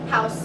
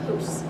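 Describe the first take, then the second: First: The vowel is an 'ow' sound. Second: The vowel is a long 'oo' sound. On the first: This is the modern pronunciation. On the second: This is the older, pre-shift pronunciation.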